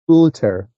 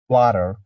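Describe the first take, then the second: First: The word is said in a British accent. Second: The word is said in an American accent. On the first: "And in British, it's maybe water" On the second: "In American accent, I'm not sure, but maybe it's like water"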